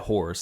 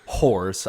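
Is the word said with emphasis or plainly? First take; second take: plainly; emphasis. First: The word is said plainly, without extra force. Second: The word is said with extra emphasis and force. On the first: The speaker calls it right. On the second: The speaker calls it wrong.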